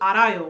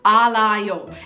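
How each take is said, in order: First: The middle consonant is a soft R sound. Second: The middle consonant is a clear L sound. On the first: The speaker calls it right. "becomes a, a soft R sound. So now I know it's arayo" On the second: The speaker calls it wrong. "and that's wrong"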